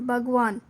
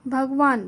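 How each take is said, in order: No difference in how they are said.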